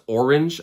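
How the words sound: It is said in a general American accent. "which most Americans pronounce orange"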